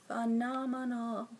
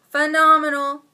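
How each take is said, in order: First: Soft, slow phenomenal; hushed awe. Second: Loud gushing phenomenal; excited. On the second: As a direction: shout phenomenal with delight. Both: Real, not acted. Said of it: "repeats word".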